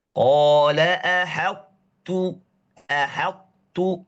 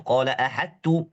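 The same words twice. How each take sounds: First: "ahattu" slow, tongue starts at ta and moves to ta, no bounce; drawn-out "Qala ahattu" with incomplete idgham; correct reading. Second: "Qala ahattu" read with ta straight away, full merge; quick mistaken "ahattu" with t swallowed; wrong reading. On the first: Teacher modelling the right recitation, slow and loud. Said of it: "Mulainya lidah kita di makhraj ta". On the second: Teacher imitating a student's wrong recitation. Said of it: "Ada yang salah baca seperti itu". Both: Shown as a demonstration.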